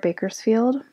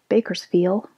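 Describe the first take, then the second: First: The final D sound is pronounced. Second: The final D sound is dropped.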